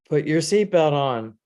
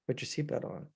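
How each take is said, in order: First: It is said at a louder volume. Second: It is said at a softer volume.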